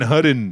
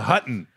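First: The middle consonant is a D sound. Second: The middle consonant is a T sound. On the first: This imitates someone who cannot say the letter T. The speaker calls it wrong. "Eddie can't pronounce the letter T. It's always a fucking D" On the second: This is the hotel's actual name. The speaker calls it right. "And it was the Hutton"

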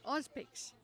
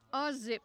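First: The name ends with a 'pix' sound. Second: The name ends with a 'zip' sound. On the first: The speaker calls it wrong. "As some people call it" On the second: The speaker calls it right.

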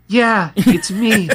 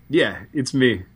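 First: It is said in a put-on woman's voice. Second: It is said in the reader's own voice.

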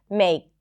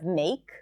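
First: The final consonant is left off. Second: The final consonant is clearly pronounced. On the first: The speaker calls it wrong. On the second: The speaker calls it right.

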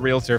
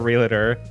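First: It has no extra vowel after real. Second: It has an extra vowel after real. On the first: The speaker calls it right. "No, you did it. That was great" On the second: The speaker calls it wrong. "There is no extra A after"

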